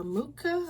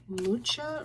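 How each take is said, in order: First: Mucha said MOO-ka, with a hard K; "Mucha" as MOO-kuh, pitched up, unsure; K pronunciation. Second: Mucha said MOO-cha, CH as in church; "Mucha" as MOO-chuh, rising questioningly; CH pronunciation. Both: Shown as a demonstration. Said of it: "I don't know for sure how to say his last name".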